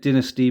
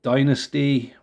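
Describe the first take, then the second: First: The first syllable does not sound like Dynamite's. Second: The first syllable sounds like Dynamite's. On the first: "pronounced Dynasty by the presenters" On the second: "similar to Dynamite"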